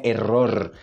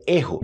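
First: "error" with rolled R in the middle and at the end; Spanish "error", tongue trilled; Spanish-style R. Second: "erro" with breathy H sound, "EH-ho"; Portuguese "erro", R softened to H; Brazilian double R. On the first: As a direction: roll both Rs in "error". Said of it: "Não é error". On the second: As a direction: say "erro" with an H and no final R. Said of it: "É erro". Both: Shown as a demonstration.

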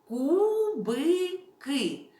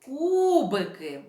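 First: Кубики as КУ – БИ – КИ, slow and high; split into syllables. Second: Кубики in one word with КУ held long; stress on first syllable. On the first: Teacher divides the word for children, slowly separating КУ-БИ-КИ. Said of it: "розділимо це слово на склади". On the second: Teacher finds the stressed syllable, holding КУ in кубики. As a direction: stretch the opening of кубики. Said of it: "знайдемо наголошений склад". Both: Shown as a demonstration.

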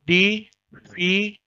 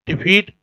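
First: "डी फी" said slowly, syllable by syllable with a gap; "डी फी" spoken slowly, one syllable at a time; split into syllables. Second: Said in the usual way. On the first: Shown as a demonstration. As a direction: break "डी फी" into two slow separate beats.

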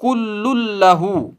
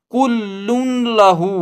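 First: कुल्लुन लहू as kullul-lahu with a doubled l; correct merged recitation. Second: कुल्लुन लहू slow, with the n kept before the l; wrong nasal reading. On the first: Teacher demonstrating the right Quran reading, merged. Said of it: "इसको अब पढ़ेंगे". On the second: Teacher showing students the wrong Quran reading slowly. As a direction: sound the nun in कुल्लुन लहू, as the mistake. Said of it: "नहीं पढ़ेंगे". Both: Shown as a demonstration.

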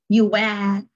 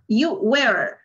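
First: British "you were", R dropped into a schwa; non-rhotic British "were"; British accent. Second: American "You were" with the R sounded; American accent. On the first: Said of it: "Por ahí no mencionan la R". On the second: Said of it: "Aquí sí se pronuncia la R". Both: Shown as a demonstration.

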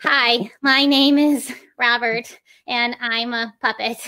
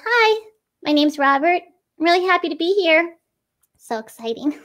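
First: Mock stilted puppet intro. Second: Brighter, higher puppet greeting with little inflections; lively puppet intro. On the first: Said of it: "they move the head with every single syllable". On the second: Puppeteer demoing an expressive puppet intro, higher and lively. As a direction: add inflection to each phrase, higher and brighter. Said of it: "we can just add these little inflections". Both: Shown as a demonstration.

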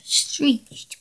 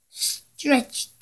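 First: "Screeched" with scr and a long ee; corrected word. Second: "Stretched" read with a t sound and short e, a misreading; "Stretched" instead of the word on the page. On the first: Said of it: "it's screeched". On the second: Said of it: "It's not stretch, it's screeched". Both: Shown as a demonstration.

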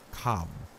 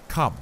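First: Calm grave command; grave professor. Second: Loud, high, firm Come; firm command. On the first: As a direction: say it calmly and gravely. Van Helsing calls Arthur. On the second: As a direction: snap it out as an order. Van Helsing urges. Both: Acted.

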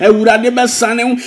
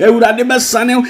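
The two takes are said the same way.

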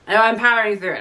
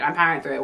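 First: Forced brightness. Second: Resigned repeat. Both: Real, not acted. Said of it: "Sorry if I don't sound, like, super enthusiastic".

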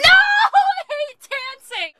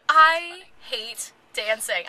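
First: Slow, high, laughing outburst; laughing shout. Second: Said in the usual way. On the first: Real, not acted. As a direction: blurt it out loud while laughing.

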